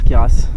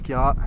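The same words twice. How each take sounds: First: The final S is pronounced. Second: The final S is silent. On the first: The speaker calls it wrong. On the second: The speaker calls it right.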